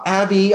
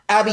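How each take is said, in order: First: The name is said in a mild, exasperated scolding tone. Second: The name is said in a sharp, urgent, alarmed tone. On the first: The problem is unhealthy but not dangerous. "I have to say something like this to her" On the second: The situation is life-threatening. "That's the tone I take when she lets go of my hand when we're crossing a busy street"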